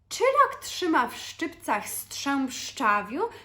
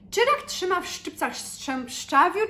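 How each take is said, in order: First: The phrase is said at a slow pace. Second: The phrase is said at a faster pace. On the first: "it's difficult even when I do it slowly" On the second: "let's try to say it a bit faster"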